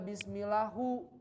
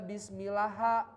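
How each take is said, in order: First: The word ends with a u vowel. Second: The word ends with an a vowel. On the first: "nggak dibaca bismillahu" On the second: "nggak dibaca bismillaha"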